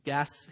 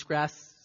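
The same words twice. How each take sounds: First: Said in the usual way. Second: "grasps" said with an r, as grasps instead of gasps; slip of the tongue. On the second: Real, not acted. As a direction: misspoken "grasps" with a clear gr sound. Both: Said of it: "excuse me, gasps".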